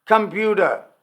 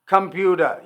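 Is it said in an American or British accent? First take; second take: American; American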